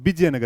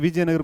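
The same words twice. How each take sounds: First: The name begins with a B sound. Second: The name begins with a V sound.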